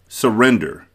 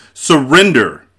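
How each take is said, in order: First: Said in the usual way. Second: Loud, higher shouted demand. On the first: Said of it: "the prince said". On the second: A narrator's reading. Prince demands that Wesley give up, shouted. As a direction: shout it as an order. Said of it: "the prince shouted".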